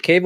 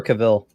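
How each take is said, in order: First: "Cavill" as KAY-vill, long A first; first-syllable stress. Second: "Cavill" as kuh-VILL; second-syllable stress. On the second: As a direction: say "Cavill" with a short, weak first vowel and stressed "vill". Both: Shown as a demonstration. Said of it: "is it Cavill or Cavill?".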